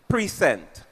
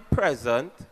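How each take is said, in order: First: The stress is on the second syllable. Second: The stress is on the first syllable. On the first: It means to offer or show something. The speaker calls it right. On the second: It means the current moment. The speaker calls it wrong.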